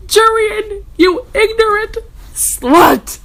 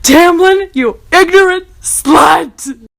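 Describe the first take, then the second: First: Higher, louder mock outburst; mock insult. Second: Higher, louder mock outburst, ignorant dragged slow; mock insult. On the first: Reader hurling a comic insult at Jurian, mock shouting. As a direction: drag out ignorant as a joke insult. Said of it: "ironic insult quote". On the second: Reader hurling the same comic insult at Tamlin, mock shouting. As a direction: fling the line like a sketch punchline. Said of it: "same insult at Tamlin".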